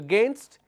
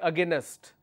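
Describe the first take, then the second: First: The word is said with two syllables. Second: The word is said with an extra syllable. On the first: The speaker calls it right. "Instead of saying against" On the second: The speaker calls it wrong. "they are adding another syllable here"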